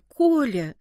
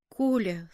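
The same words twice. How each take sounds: First: More urgent, drawn-out plea on the name; pleading. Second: Low, understated plea; pleading. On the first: Boy begs his friend Kolya to stop, pleading insistently. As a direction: call the name out imploringly. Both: A narrator's reading. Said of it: "с мольбой выговорил я".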